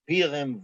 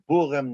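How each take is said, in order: First: It is said with the southern dialect vowel. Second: It is said with the northern Litvish vowel. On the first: "not Pirim" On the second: "a Litvish-based pronunciation"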